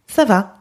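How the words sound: The pitch falls at the end, as an answer.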